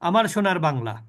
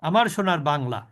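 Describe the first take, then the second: First: The vowels are kept short. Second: The vowels are kept short.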